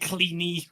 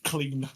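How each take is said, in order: First: The name ends with an extra 'ee' syllable. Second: The name is said as one syllable. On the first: The speaker calls it right. "It's fucking cleany" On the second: The speaker calls it wrong. "It's actually not clean"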